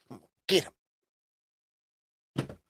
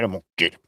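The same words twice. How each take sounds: First: Slow, drawn-out mock villain; hammed-up threat, stretched out; 1 mock menace. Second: Said in the usual way.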